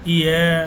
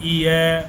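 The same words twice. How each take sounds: No difference in how they are said.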